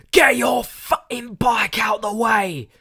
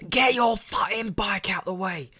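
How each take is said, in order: First: Furious yell, much higher and louder; angry shout. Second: Higher, hammed-up angry yell; retold shout. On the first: Retold or imitated. Angry man shouting at a cyclist on a train, loud yell. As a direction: bellow it at a stranger in the way. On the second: Narrator repeating the man's yell at the cyclist, mock shout. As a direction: bark it again, recalling the shout. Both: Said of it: "Shouting, the whole train can hear".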